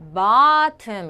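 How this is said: The first vowel is an open 'ah' sound. "미국에서는 bottom 이렇게 발음하는데"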